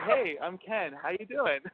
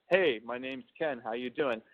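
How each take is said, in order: First: Higher-pitched, casual greeting; being himself. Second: Composed, direct self-introduction; professional voice. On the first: Man showing how he greets people as himself, natural and higher. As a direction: introduce yourself as your relaxed, higher-voiced self. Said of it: "when I'm being myself". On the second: Man demonstrating how he introduces himself at work, professional. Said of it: "my professional voice". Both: Shown as a demonstration.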